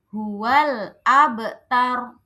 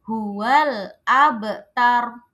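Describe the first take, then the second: The two takes are said the same way.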